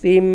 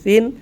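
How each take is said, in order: First: The syllable ends with a nasalized m sound. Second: The syllable ends with an n sound. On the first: "পড়ব সা দুই জের সিম এবং সাথে সাথে গুণনাও করব" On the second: "আছে সা দুই জের সিন"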